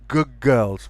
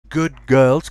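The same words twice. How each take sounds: First: The word good ends with a g sound. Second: The word good ends with a d sound.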